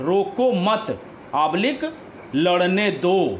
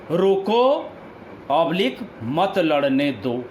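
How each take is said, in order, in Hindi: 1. विराम और बलाघात 'mat' के ठीक बाद आते हैं। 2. विराम और बलाघात 'roko' के ठीक बाद आते हैं। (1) "दूसरे वाक्य में मत पर बलाघात होने से" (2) "पहले वाक्य में रोको पर बलाघात होने से"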